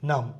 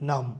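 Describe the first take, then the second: The two takes are said the same way.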